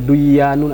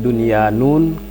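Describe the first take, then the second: First: The n is merged into the following y. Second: The n is pronounced clearly before the y. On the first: The speaker calls it wrong. "tidak boleh" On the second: The speaker calls it right. "nun dengan ya itu maka diizharkan bacaannya"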